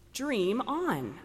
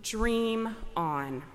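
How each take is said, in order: First: It is said in a warm, hopeful tone. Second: It is said in a scornful, dismissive tone. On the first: Keep dreaming and do not stop. "those words can just as easily be ones of hope" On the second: The goal is impossible, so give it up. "unreachable and so utterly unachievable"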